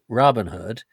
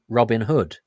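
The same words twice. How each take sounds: First: The stress is on Robin, American style. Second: The stress is on Hood, British style.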